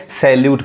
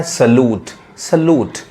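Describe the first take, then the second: First: सैल्यूट with a 'sel-YOOT' y-glide; common mispronunciation. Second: सैल्यूट as 'suh-LOOT', no y-glide; taught pronunciation. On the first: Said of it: "maximum लोग गलत करते हैं". (सैल्यूट को 'सेल-यूट' बोलें) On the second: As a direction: say सैल्यूट with a plain 'loo'. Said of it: "लू sound यानी ऊ sound". (सैल्यूट को 'सलूट' बोलें) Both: Shown as a demonstration.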